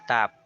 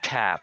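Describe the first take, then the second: First: The T is released with no puff. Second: The T is released with a strong puff. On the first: The speaker calls it wrong. "we pronounce the letter T without aspirating it" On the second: The speaker calls it right. "every time I pronounce a T sound, the air moves"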